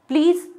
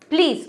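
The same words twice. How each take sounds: First: It sounds like a calm, polite request. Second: It sounds annoyed and exasperated. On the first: The speaker is making a polite request. "Request form में please करके बोला" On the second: The speaker is begging to be left alone. "बहुत परेशान होके irritate होके बोल रहे हो"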